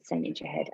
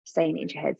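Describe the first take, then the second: First: Soft whisper, no voice at all. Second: Said in the usual way. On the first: Shown as a demonstration. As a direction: whisper it as if only inside your head.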